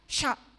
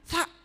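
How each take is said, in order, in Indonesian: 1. Konsonannya bunyi 'sh'. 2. Konsonannya bunyi 's' biasa. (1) "karena ngosom sya" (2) "nggak bisa bilang sa"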